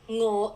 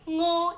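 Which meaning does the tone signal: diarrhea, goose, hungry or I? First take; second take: hungry; diarrhea. First: Its tone gives the meaning 'hungry'. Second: Its tone gives the meaning 'diarrhea'. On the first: It refers to wanting food. "is hungry" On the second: It refers to a stomach upset. "is diarrhea"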